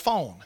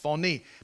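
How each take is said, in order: First: The word is said as one syllable. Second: The word is said as two syllables. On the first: The speaker calls it wrong. "But in Greek, it's not pronounced that way" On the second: The speaker calls it right. "Like phony, that's the way it's pronounced"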